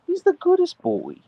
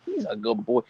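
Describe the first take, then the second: First: High, sing-song pet voice praise. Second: Said in the usual way. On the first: Real, not acted. Praising her husky Archer in high baby talk.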